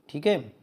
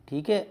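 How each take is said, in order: The two takes are said the same way.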